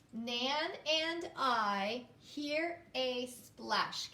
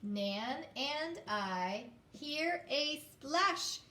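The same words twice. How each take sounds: First: Very slow, word by word; slow reading aloud. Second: Very slow, word by word, with the class; slow choral reading. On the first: Teacher rereading the sentence slowly. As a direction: read it again slowly. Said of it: "I'm gonna read it again". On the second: Teacher reading in unison with students. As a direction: read it together slowly. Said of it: "Can you do it with me now". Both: Shown as a demonstration.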